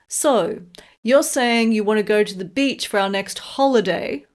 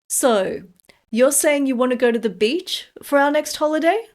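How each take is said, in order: First: The voice falls at the end. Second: The voice rises at the end. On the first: The speaker tells the listener what they think. The speaker calls it wrong. "then he would be telling Karen what she thinks" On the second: The speaker checks the listener's point politely. The speaker calls it right. "it's better to go up at the end of this se- this question. Listen to me"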